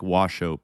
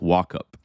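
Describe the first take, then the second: First: The name sounds like 'wash up'. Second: The name sounds like 'walk up'. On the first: "I would think wash up" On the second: "He claims that it's pronounced walk up"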